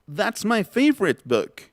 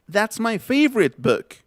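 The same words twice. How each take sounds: No difference in how they are said.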